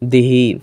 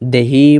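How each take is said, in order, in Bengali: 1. প্রথম স্বরধ্বনিটি 'i'-এর মতো শোনায়। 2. প্রথম স্বরধ্বনিটি 'e'-এর মতো শোনায়। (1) "আবার অনেকে আছে দিহি বলে" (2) "অনেকেই আছে দেহি বলে"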